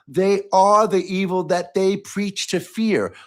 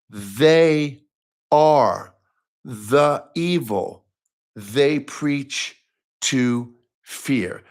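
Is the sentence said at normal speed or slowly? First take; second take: normal speed; slowly. First: It is said at normal speed. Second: It is said slowly.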